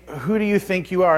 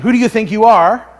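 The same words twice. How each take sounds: First: It is asked as a sincere question. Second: It is asked as a challenging rebuke.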